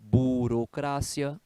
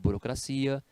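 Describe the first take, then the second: First: The word carries the Spanish stress placement. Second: The word carries the Portuguese stress placement. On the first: "algumas palavras em espanhol... O ponto de divergência é a sílaba tônica" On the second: "no lugar de"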